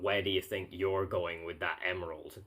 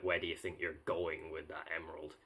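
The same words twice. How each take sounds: First: The word "you're" carries the main stress. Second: The word "you're" carries no main stress. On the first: The speaker calls it right. "the emphasis is on the word "your,"" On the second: The speaker calls it wrong. "I messed it up"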